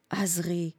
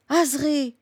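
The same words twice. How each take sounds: First: Soft, subdued calling of her name; hushed tender call. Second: Higher-pitched call of her name; alarmed cry. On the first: Fighter cradling the dying old woman's head, hushed call. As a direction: say the name gently, very softly. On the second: Fighter seeing the old woman fall, alarmed cry. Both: A narrator's reading.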